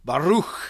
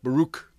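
First: The name is pronounced the Hebrew way. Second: The name is pronounced the English way. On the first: The speaker calls it right. "that's the Hebrew pronunciation" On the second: The speaker calls it wrong. "It's not Baruch"

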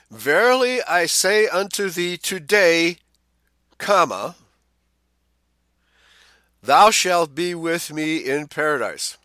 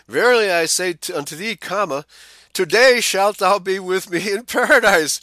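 First: The pause comes after the word today. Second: The pause comes before the word today.

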